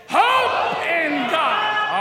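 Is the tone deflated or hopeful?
hopeful. It sounds energetic and hopeful.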